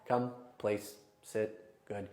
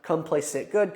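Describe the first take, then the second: First: The commands are said slowly and calmly, with pauses. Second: The commands are said quickly and energetically. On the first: The dog is being calmed down before bed. "I've even calmed my own tone down" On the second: The dog is being worked up with active training. "Fast paced training"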